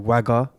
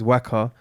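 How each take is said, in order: First: The middle consonant is a g sound. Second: The middle consonant is a k sound. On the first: The speaker calls it wrong. "they always got it wrong with Wagga with two two G's" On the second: The speaker calls it right. "The Eng- English pronunciation is Waka"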